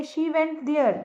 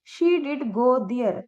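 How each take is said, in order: First: Said in the usual way. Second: "did" stressed, said slowly; slow, press on "did" to insist; emphatic did. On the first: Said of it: "normally हम बोलेंगे". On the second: Shown as a demonstration. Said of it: "जोर दे के बोलेंगे". ("did" पर ज़ोर, धीरे-धीरे)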